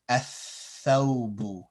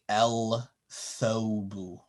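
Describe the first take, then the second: First: The L is skipped and the th is doubled. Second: The L is pronounced before the th sound. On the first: The speaker calls it right. "you would skip over the lam" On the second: The speaker calls it wrong. "you wouldn't say el thobu"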